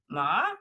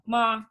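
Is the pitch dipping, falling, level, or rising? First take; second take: dipping; level. First: The pitch dips down, then rises. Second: The pitch stays level and flat. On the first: It means horse. "drop down and then go up" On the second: It means mother. "They're like a monotone"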